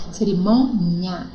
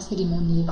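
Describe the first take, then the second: First: "Cerimônia" slow, "mô" held before a separate "nia"; "Cerimônia", drawn out on the stressed syllable; stressed syllable shown. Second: Said in the usual way. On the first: Shown as a demonstration. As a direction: split "Cerimônia" after a stretched "mô". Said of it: "Observe a posição da sílaba tônica". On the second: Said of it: "Já ia falar cerimônia".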